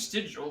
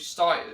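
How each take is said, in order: First: The name is said with two syllables. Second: The name is said with one syllable. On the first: The speaker calls it wrong. "I kept saying Stigil" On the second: The speaker calls it right. "but it's actually style"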